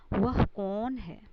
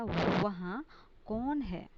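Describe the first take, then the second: First: "वह कौन है" read as the wrong example, with वह; teacher models the wrong wording वह कौन है; incorrect form. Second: "वहाँ कौन है" read as the right example, with वहाँ; teacher gives the corrected wording वहाँ कौन है; correct form. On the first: Teacher showing students the wrong form, slowly read. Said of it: "अशुद्ध". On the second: Teacher showing students the corrected form. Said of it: "शुद्ध हो गया". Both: Shown as a demonstration.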